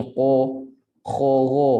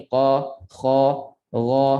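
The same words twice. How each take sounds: First: "qa, kha, gha" rounded and closed; wrong closed "qa, kha, gha". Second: "qa, kha, gha" thick but open; right open "qa, kha, gha". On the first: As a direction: show them closed like "o". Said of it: "Dia tak boleh bunyi". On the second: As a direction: say them with an open mouth. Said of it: "Dia kena bunyi". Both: Shown as a demonstration.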